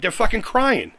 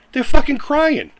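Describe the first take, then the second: First: Said in the usual way. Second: Higher, louder and slow, dragging out each word; angry slow repeat. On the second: Real, not acted. Ranting at a rival vlogger, slow angry emphasis. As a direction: hammer home the jab at the whiners.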